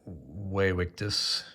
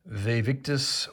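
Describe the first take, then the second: First: It begins with a W sound. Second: It begins with a V sound.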